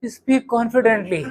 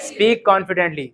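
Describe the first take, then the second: First: Slow, hesitant, unsure of yourself; mock nervous delivery; shaky unconfident take. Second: Said in the usual way. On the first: Shown as a demonstration. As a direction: drag it out like you doubt every word. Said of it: "खुद का पता हिला हुआ है". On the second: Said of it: "ऐसे नहीं बोला".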